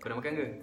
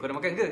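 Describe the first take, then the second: First: The question is said plainly, without emphasis. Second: The question is said with added emphasis. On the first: "kalau tak kan dia macam" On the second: "nampak ke tu kita tekankan sikit"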